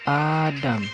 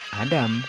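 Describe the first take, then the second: First: The first vowel is held long. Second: The first vowel is kept short. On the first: This is the Arabic reading. "huruf alif pada kata Adam dibaca panjang" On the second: This is the Hebrew reading. "dibaca dengan pelafalan pada umumnya"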